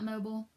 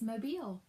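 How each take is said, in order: First: It is said the non-Southern way. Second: It is said the Southern way. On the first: The speaker calls it wrong. "Not Mobile" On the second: The speaker calls it right. "Its name is Mobile"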